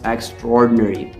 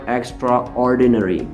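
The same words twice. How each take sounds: First: The middle a and o merge into one o. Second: The middle a and o are said separately. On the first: The speaker calls it right. "the pronunciation is extraordinary, we mix the A and O sound to make that O sound only" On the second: The speaker calls it wrong. "not extraordinary"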